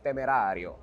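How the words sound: The name is said in an Italian way.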